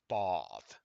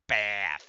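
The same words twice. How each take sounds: First: It is said with a British vowel. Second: It is said with an American vowel.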